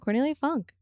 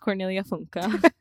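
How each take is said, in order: First: The surname ends on the consonant sound. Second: The surname ends with an extra vowel sound. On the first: The speaker calls it wrong. "My entire childhood, I was like, yeah" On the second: The speaker calls it right. "So it's Cornelia Funke"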